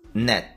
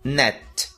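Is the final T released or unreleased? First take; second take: unreleased; released. First: The final T is held without releasing air. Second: The final T is clearly released with air. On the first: "a forma mais comum do dia a dia" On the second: "T pronunciado da maneira mais exagerada"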